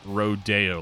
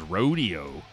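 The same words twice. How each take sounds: First: Rodeo is pronounced like the street Rodeo Drive. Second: Rodeo is pronounced the common everyday way. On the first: "he pronounces it like that, like rodeo, like Rodeo Drive" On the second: "I always thought it was rodeo"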